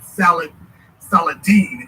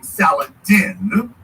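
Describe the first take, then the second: First: The name is said as Salah al-Din, Arabic style. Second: The name is said as Saladin, English style. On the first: "for those of you who thought I was messing up when I said" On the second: "instead of saying Saladin"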